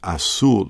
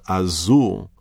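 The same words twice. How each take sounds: First: The middle consonant is a hissing s sound. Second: The middle consonant is a buzzing z sound. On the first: This is the Spanish pronunciation. "in Spanish it sounds like azul" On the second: This is the Portuguese pronunciation. "the word azul has a Z sound"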